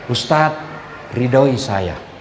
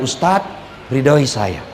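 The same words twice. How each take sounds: First: Soft, slow, lower pleading; tender plea. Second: Soft, lower pleading; tender plea. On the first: Wife asking her husband for his blessing before he leaves, soft and tender. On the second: Wife asking her husband for his blessing after a quarrel, soft and tender. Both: Retold or imitated. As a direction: murmur it gently, asking for a blessing.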